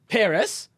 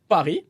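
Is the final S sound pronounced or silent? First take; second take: pronounced; silent. First: The final S sound is pronounced. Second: The final S sound is silent. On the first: The speaker calls it wrong. "don't say Paris" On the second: The speaker calls it right. "don't pronounce the S"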